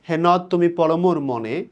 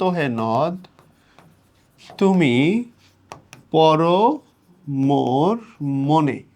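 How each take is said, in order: First: Said in the usual way. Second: হে নদ, তুমি, পর, মোর, মনে very slow with long pauses; word-by-word verse reading. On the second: Shown as a demonstration. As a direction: stretch each word of হে নদ তুমি পর মোর মনে and stop after it. কবিতা ভেঙে ভেঙে পড়া. (হে নদ তুমি পর মোর মনে টেনে, থেমে থেমে)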